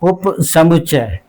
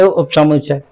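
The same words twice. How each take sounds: First: It is said with force, each sound clear. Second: It is said quickly, the u sound swallowed. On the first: The speaker calls it right. "जोर लगा के बोलेंगे" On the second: The speaker calls it wrong. "जल्दी में बोलेंगे"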